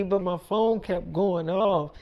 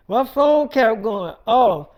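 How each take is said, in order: First: Said in the usual way. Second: "My phone kept going off" louder and drawn out; slow, forceful stress across "My phone kept going off"; emphatic repeat. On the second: Real, not acted. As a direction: punch "My phone kept going off" slowly and loudly.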